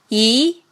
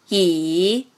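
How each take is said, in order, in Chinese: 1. 音高从中音升到高音。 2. 音高先降到低处，再升起来。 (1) "二声扬" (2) "三声拐弯"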